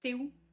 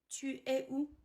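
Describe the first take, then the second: First: It is said quickly and run together. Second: It is said slowly with every word full.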